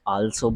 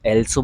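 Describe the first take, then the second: First: The word begins with an open 'aa' vowel. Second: The word begins with an 'e' vowel. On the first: "कुछ लोग आल्सो बोल देते हैं" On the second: "कुछ लोग एल्सो बोल देते हैं"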